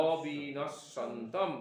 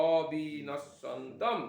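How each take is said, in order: Both takes have the same delivery.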